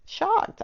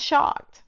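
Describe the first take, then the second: First: Shocked thrown up high and drawn out; stressed shocked. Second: Said in the usual way. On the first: Shown as a demonstration. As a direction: land on shocked, pitch leaping up. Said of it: "I tell you". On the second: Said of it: "shocked, I tell you".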